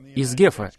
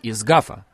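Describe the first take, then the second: First: The name is said with an 'e' vowel. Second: The name is said with an 'a' vowel. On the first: This is how it is said in the United States. "если вы живете в Соединенных Штатах" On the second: This is how it is said outside the United States. "если вы живете где-то в другом месте"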